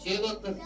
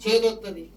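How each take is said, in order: First: చేదొత్తది repeated much softer, dropped away; quiet repeat. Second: Said in the usual way. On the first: Shown as a demonstration. Pastor warning about foolish faith, soft echoed repeat. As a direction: let చేదొత్తది fall quiet as an echo. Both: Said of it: "పిచ్చి విశ్వాసం అయితే".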